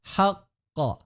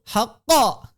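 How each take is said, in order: First: The echo is light and plain. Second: The echo is forceful and exaggerated. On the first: The speaker calls it right. "Biasa aja" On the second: The speaker calls it wrong. "Enggak perlu"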